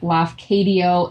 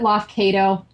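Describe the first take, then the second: First: The name ends with a 'dee-oh' sound. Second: The name ends with a 'toe' sound. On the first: The speaker believes this is the real pronunciation. "I think it's like Lafcadio" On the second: Someone else said it this way. "She pronounced it Lofcato"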